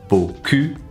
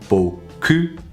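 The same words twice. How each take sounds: The two takes are said the same way.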